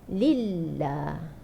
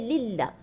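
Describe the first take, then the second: First: The L sound is held briefly, with one bounce. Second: The L sound is fully stopped, with no flow. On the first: The speaker calls it right. "Dia sekali enjut je" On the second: The speaker calls it wrong. "Dia tak ada terlepas pun sikit"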